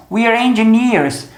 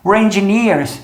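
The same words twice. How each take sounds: First: "we're engineers" with "we're" as "wee-er"; slow, careful "we're engineers"; full contraction. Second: "We're engineers" with "We're" reduced to "were"; "We're engineers" said as "wer engineers"; sped-up contraction. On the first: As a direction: keep the long ee in "we're" before "engineers". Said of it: "se eu fizer a contração". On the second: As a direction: squeeze "We're" into one short syllable before "engineers". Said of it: "falar a frase inteira rápida". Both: Shown as a demonstration.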